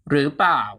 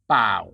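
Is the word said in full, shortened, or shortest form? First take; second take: full; shortened. First: It is said in full with two syllables. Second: Only the second syllable เปล่า is said. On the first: "gradually shorten the pronunciation" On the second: "to เปล่า"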